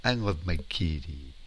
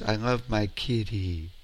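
No difference in how they are said.

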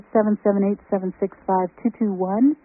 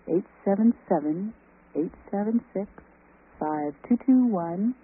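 First: The number is said fast. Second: The number is said slowly.

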